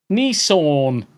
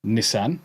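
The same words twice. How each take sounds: First: Nissan said as NEE-sawn, louder; loud, drawn-out NEE-sawn for Nissan; pretentious pronunciation. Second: Said in the usual way. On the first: Shown as a demonstration. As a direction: stretch Nissan into a posh-mocking NEE-sawn. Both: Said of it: "you fucking pretentious bastards".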